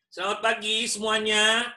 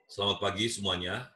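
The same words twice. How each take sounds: First: The voice is pitched high and bright. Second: The voice is pitched at a middle level.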